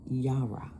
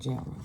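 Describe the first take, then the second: First: The word begins with a Y sound. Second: The word begins with a J sound. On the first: The speaker calls it right. "that's how you pronounce it. Yara" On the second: The speaker calls it wrong. "not Jara"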